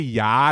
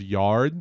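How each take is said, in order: First: Said in a Boston accent, without the r. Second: Said in a standard accent, with the r. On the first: This is how people in Boston say it. "They say yard" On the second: This is the usual way to say it. "instead of yard"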